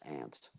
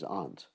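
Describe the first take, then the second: First: It is said in an American accent. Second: It is said in a British accent. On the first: "American English is aunt" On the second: "proper English is aunt"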